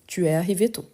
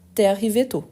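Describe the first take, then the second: First: The vowel of 'tu' is fully pronounced. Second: The vowel of 'tu' is dropped.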